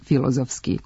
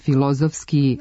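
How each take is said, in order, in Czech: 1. Přízvuk padá na první slabiku. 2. Přízvuk padá na druhou slabiku. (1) "naglasak prenesu na prvi slog" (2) "na trećem slogu s kraja reči"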